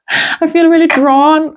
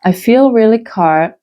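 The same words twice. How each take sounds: First: Laughing at own slip. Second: Said in the usual way. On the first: Real, not acted. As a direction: chuckle through the correction. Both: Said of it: "I was about to say".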